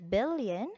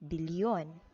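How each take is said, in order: First: It is said the English way, without a y glide. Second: It is said the Filipino way, with a y glide. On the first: "Instead of billion" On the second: "it will become billion"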